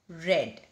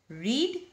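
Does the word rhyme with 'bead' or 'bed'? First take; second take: bed; bead. First: The vowel is short, like in 'red'. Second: The vowel is long, like in 'reed'. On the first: The action happened in the past. "the spelling is same, but the pronunciation is different" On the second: The action happens in the present. "what is the past tense of read? ... the spelling is same, but the pronunciation is different"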